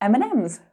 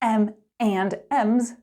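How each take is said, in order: First: The word 'and' is reduced to n. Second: The word 'and' is said in full. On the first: The speaker calls it right. "We say" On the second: The speaker calls it wrong. "Nobody says"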